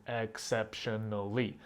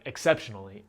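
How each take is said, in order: First: Exceptionally said slowly, each syllable apart; slow syllable split. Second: Said in the usual way. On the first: Shown as a demonstration. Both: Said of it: "five syllable words like".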